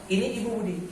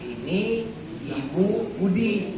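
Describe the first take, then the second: First: All words are read together without any pauses. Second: Each word is read separately with pauses between. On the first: The reader is skilled and takes in several words at once. "sekali tarikan nafas" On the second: The reader is still a beginner reading one word at a time. "bacanya kata per kata"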